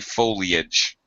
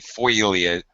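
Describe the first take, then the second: First: The 'ee' vowel comes after the L. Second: The vowel glide comes before the L, like 'foil'. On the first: The speaker calls it right. "it should be foliage" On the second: The speaker calls it wrong. "When we say foliage"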